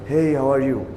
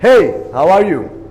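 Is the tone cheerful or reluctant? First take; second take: reluctant; cheerful. First: It sounds reluctant, as if not wanting to talk. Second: It sounds cheerful and friendly, with a smile.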